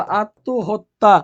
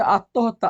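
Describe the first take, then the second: First: আত্মহত্যা very slow, broken into syllables; teacher sounding out আত্মহত্যা slowly; pronunciation demo. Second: Said in the usual way. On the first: Shown as a demonstration. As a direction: draw out each part of আত্মহত্যা, louder, rising at the end. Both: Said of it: "এভাবে হবে".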